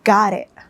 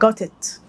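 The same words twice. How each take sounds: First: The t is flapped and the final t is glottal. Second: The t sounds are clearly pronounced.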